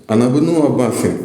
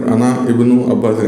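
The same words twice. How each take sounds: First: अना इब्नु run together as ana-bnu, alif silent; joined reading. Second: अना इब्नु अब्बासिन with the i of इब्नु sounded apart; wrong separated reading. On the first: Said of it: "इस तरीके से जमा के पढ़ना है". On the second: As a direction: read अना then a separate इब्नु, the way not to do it. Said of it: "ऐसे नहीं पढ़ना है". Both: Shown as a demonstration.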